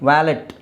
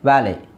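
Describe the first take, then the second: First: The word ends with a clear t sound. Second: The word ends on a vowel, no t. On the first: The speaker calls it wrong. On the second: The speaker calls it right.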